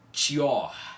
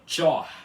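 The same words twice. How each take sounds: First: An 'ee' glide comes between 'tch' and 'o'. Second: The 'o' follows 'tch' directly, without glide. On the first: The speaker calls it wrong. "a pronúncia correta não é tchor, com o som do i depois do T chiado" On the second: The speaker calls it right. "é tchor, tchor ... sem o I antes dele"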